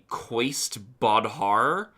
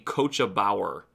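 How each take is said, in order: First: It is read as spelled, first word like 'kwaist'. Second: The first word sounds like 'kohsha', the second like 'bauer'. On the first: The speaker calls it wrong. "I probably would have said" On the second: The speaker calls it right. "it is apparently pronounced"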